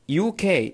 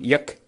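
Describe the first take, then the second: First: Each letter is said separately. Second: It is run together as one word. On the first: The speaker calls it right. "لابد من نطق كل حرف على حدة" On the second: The speaker calls it wrong. "ما ينصح تقول يك ين"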